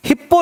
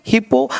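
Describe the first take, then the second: First: First हिप्पो as "hip-po", p held; geminated हिप्पो; doubled consonant. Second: Second हिप्पो as "hi-po", one p; undoubled हिप्पो; single consonant. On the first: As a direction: sound both p's in हिप्पो. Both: Shown as a demonstration. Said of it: "नहीं".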